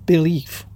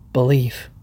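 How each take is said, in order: First: Believe said firmly with a falling tune; stressed believe. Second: Believe said low and soft, drawn out; quiet emphasis. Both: Shown as a demonstration.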